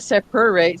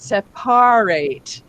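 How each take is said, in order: First: The middle vowel is reduced to a weak 'er'. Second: The middle vowel is overpronounced as a clear 'ar'. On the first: "It's not separate" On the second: "so I overpronounce that it's R, not er"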